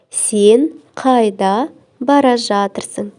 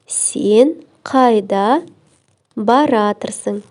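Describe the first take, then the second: First: The verb is said in full, unreduced. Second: The verb is said contracted into one word.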